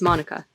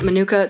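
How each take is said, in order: First: It is said in the local pronunciation. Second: It is said in a non-local pronunciation. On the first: The speaker calls it right. "the local and more correct pronunciation is Monica" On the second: The speaker calls it wrong. "Although I pronounce it Manuka"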